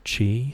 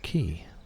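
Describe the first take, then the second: First: The name sounds like 'chee'. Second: The name sounds like 'key'. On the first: This is what other people called him. "Other people would call him Mister Chi" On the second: This is what the speaker always called him. "I had always called him Mister Key"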